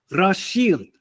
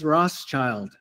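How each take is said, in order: First: The ending does not sound like English child. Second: The ending sounds like the English word child. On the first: This is the original pronunciation. The speaker calls it right. "Pero la pronunciación verdadera" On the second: This is how it is commonly said in English. The speaker calls it wrong. "la pronunciación común en inglés es Rothschild. Como child es hijo"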